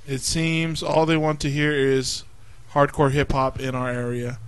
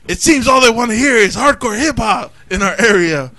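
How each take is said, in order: First: It is read in a low, sorry tone. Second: It is read loudly with lots of energy.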